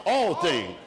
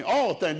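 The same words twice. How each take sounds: First: "All" stretched and weighted; stress on all. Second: "All" hit hard and falling; stress on all. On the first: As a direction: lean on "All", let "things" fall. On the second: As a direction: punch the word "All" before "things". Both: Shown as a demonstration. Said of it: "Didn't say some things or a few things".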